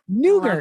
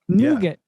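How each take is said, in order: First: The word is said with an R sound. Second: The word is said without an R sound. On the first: The speaker calls it wrong. "I always thought there was an R there" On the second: The speaker calls it right. "pronounce it correctly"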